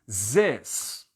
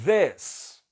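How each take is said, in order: First: It starts with a plain z sound. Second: It starts with a tongue-out th sound. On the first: "como se fosse um Z mesmo" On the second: "esse Z com a língua para fora"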